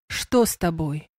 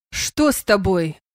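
First: Insistent. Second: Taken-aback question, drawn out slowly; amazed. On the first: Sandr repeats his question to the unwell woman, insistent. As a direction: press gently for an answer, voice lowered. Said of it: "настойчиво повторил он". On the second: Sandr questions the woman who pushed his hand away, amazed. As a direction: ask slowly in mild astonishment. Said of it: "изумился Сандр". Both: A narrator's reading.

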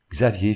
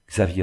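First: Said in the usual way. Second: Understated tearful call. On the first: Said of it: "fit Gertrude". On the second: A narrator's reading. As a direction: call with a hint of tears. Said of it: "répéta-t-elle avec des larmes plein la voix". (appel légèrement éploré)

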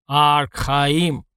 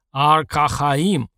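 First: Guttural creature voice, a bit more contained; less forceful mutant growl. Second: Slow, drawn-out guttural growl; mutant growl. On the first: Alpha mutant repeating the word, restrained growl. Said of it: "более тихо сказал альфа-мутант". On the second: Alpha mutant repeating a word on request, slow growl. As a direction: growl out each syllable slowly like a monster. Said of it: "прорычал альфа-мутант". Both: A narrator's reading.

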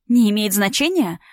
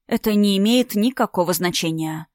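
First: Laughing. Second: Even, unhurried reply; calm. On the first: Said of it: "рассмеялась Настя". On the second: Alina calmly dismissing the old romance, even and cool. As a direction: say it coolly, untouched. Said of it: "спокойно ответила Алина". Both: Acted.

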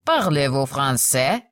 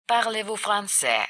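First: Slow question, FRANÇAIS rising at the end. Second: Softer aside, "français" falling at the end; quiet footnote. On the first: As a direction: ask "Parlez-vous français" slowly, lifting the end. Frenchman asks, before translator's footnote. (медленный вопрос с подъёмом на français) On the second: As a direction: read "Parlez-vous français" softly, as a footnote. Same words repeated as translation footnote. (тихая сноска) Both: A narrator's reading.

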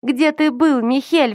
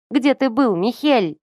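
First: Hysterical reproach. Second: Higher, rising into a reproachful cry; upset reproach. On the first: Sister screaming at her brother, much higher hysterical cry. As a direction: hurl the question in hysterics. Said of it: "взиравшая на эту истерику". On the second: Sister reproaching her brother, higher upset cry. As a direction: demand an answer through tears of anger. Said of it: "сорвалась на крик Кири". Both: A narrator's reading.

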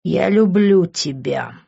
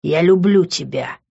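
First: Slow, deliberate declaration; confident repeat. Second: Understated, plain confession of love; exhaled confession. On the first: Man repeats it looking into her eyes, confident. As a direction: say it slowly and surely. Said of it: "смотря уверенно в её глаза". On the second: Man confesses and freezes, exhaled confession. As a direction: let it out simply. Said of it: "выдохнул и замер". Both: A narrator's reading.

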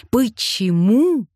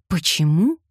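First: Почему higher and louder, slow, falling; a second, bigger take of Почему; varied reading. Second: Почему asked lightly with a rising tune; first take of Почему, light and questioning; varied reading. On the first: He tries the word Почему a different way, higher and slow. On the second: He tries the word Почему on imaginary people, a light rising question. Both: A narrator's reading. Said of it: "произносил он по-разному".

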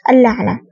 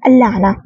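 First: Said in the usual way. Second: Understated surprised cry of "اللعنة"; surprised shout. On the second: A narrator's reading. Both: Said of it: "يصيح بدهشة".

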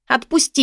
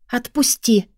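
First: Desperate shout. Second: Through gritted teeth. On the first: Shouting while struggling. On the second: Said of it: "процедила сквозь зубы". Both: A narrator's reading.

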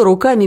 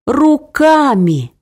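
First: Said in the usual way. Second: Руками drawn out slowly and pitched high; the word руками slow, high and emphatic; stressed руками. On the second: Acted. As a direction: lean hard on руками, stretching it out. Mother offers: eat with hands.

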